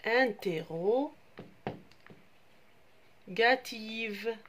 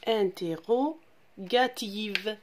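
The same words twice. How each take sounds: First: Interrogative stretched out syllable by syllable, very slow; slow teacher's model of "interrogative"; slow spelled-out word. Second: "Interrogative" said again a little slowly, each syllable clean; teacher repeats "Interrogative" carefully; clear repetition. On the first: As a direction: draw the word out so the children can follow each syllable. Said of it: "une phrase". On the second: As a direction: repeat it once for the class to copy. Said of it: "Je répète". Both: Shown as a demonstration.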